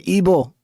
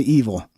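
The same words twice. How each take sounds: First: The middle consonant is a B sound. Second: The middle consonant is a V sound. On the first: This is not how Tex-Mex speakers say it. The speaker calls it wrong. "We don't say evil" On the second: This is how Tex-Mex speakers say it. The speaker calls it right. "We say evil"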